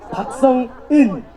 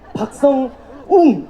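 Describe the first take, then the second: First: The last syllable is pronounced "eun". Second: The last syllable is pronounced "ung". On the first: "자꾸 박성원, 박성은, 박성웅, 이런 식으로 다들 발음을 하시거든요" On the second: "자꾸 박성원, 박성은, 박성웅, 이런 식으로 다들 발음을 하시거든요"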